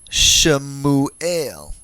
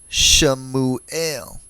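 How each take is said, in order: First: A brief vowel separates the first two consonants. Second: A brief vowel separates the first two consonants.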